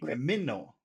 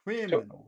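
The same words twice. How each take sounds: First: The stress falls on a later syllable. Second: The stress falls on the first syllable. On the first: The speaker calls it wrong. "that would be criminal. Criminal. Is it? Is that how it sounds?" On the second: The speaker calls it right. "This is the first one"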